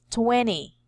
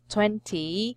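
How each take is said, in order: First: The T after the N is dropped. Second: The T after the N is clearly pronounced. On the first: "they will uh remove it and just say" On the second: "this is read as twenty"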